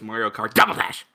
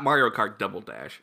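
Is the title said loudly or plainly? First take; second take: loudly; plainly. First: The title is shouted loudly and excitedly. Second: The title is said at a plain, normal volume. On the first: The speaker calls it right. "you have to scream it" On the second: The speaker calls it wrong. "It's not"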